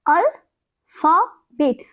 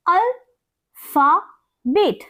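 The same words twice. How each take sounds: First: Said in the usual way. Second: अल्फाबेट split slowly syllable by syllable. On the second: Shown as a demonstration. Teacher splitting अल्फाबेट syllable by syllable for students. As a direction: stretch out अल्फाबेट into its parts, al-pha-bet. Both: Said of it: "What is it?".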